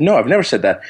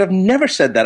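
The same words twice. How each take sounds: First: Even, matter-of-fact retold denial; simple denial. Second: Higher-pitched, emphatic retold denial; insistent denial. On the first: Doctor answers opposing attorney in court, simple retold denial. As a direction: quote your answer without heat. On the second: Doctor pressed under oath by attorney, insistent retold denial. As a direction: deny it more forcefully, as a quote.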